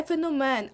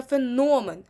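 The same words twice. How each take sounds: First: «феномен» as feno-MEN; wrong final stress. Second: «феномен» as fe-NO-men; stress on second syllable. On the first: Teacher showing the mistaken феномен, last-syllable stress. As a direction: shift the stress to МЕН in «феномен». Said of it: "не феномен". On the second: Teacher correcting to феномен, second-syllable stress. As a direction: lean firmly on НО in «феномен». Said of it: "а саме феномен". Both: Shown as a demonstration.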